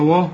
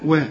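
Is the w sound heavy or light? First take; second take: heavy; light. First: The w sound is heavy and thick. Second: The w sound is light and thin. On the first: The speaker calls it wrong. "مش تقول وقال وا" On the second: The speaker calls it right. "رقق الواو"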